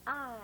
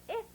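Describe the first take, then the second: First: I drawn out as "eye"; long I. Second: Brief "ih" as in "sit"; a short vowel alone, "ih". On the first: Teacher drilling pupils on long I. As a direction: stretch I like the letter name. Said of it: "long sound". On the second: Teacher drilling pupils on short ih. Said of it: "Short sound". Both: Shown as a demonstration.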